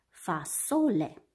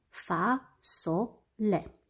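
First: Said in the usual way. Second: "Fasole" very slowly in three pieces, fa - so - le; despărțit în silabe. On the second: Shown as a demonstration. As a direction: break "Fasole" into syllables with long gaps. („Fasole” rostit foarte rar, pe silabe: fa - so - le) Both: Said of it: "are trei silabe".

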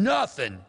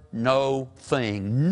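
First: NOTHING as one word, high then falling. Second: NO THING slowly, as two words; split into two words. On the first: Preacher summing up old Lot, one word. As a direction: punch NOTHING whole, with a short first vowel. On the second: Preacher summing up old Lot, split in two. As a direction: stretch NO, then set THING apart. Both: Shown as a demonstration. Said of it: "made up of two words".

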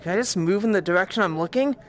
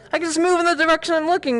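First: Said in the usual way. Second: High, fast excited discovery; quick, high-pitched burst of delight; delighted realisation. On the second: Real, not acted. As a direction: blurt it out fast and high, thrilled. Delighted realisation after the question.

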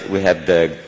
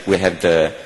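The two takes are said the same way.

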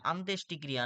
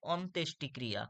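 First: আন্ত্যেষ্টিক্রিয়া with an opening long "aa"; wrong pronunciation. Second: অন্ত্যেষ্টিক্রিয়া with an opening rounded "o"; correct pronunciation. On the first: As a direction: open the first vowel wide in আন্ত্যেষ্টিক্রিয়া, "aan-". (আন্ত্যেষ্টিক্রিয়া, শুরুতে আ ধ্বনি দিয়ে) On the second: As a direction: start অন্ত্যেষ্টিক্রিয়া on "on-", not "aan-". (অন্ত্যেষ্টিক্রিয়া, শুরুতে অ ধ্বনি দিয়ে) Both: Shown as a demonstration. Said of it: "নয়".

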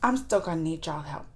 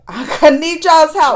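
First: Said in the usual way. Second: Louder, laughing ask for help; laughing plea. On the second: Real, not acted. Vlogger laughing as she begs viewers for help.

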